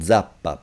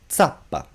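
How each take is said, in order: First: The z is voiced, like dz. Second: The z is voiceless, like ts. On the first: This is a northern regional pronunciation. "some of us do say" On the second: This is the standard Italian pronunciation. "The voiceless sound of z"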